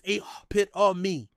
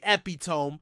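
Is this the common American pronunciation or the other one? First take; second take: other; American. First: It uses the pronunciation presented as standard. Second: It uses the pronunciation common among Americans. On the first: The speaker calls it right. "the correct pronunciation is epitome" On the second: The speaker calls it wrong. "Some Americans say epitome"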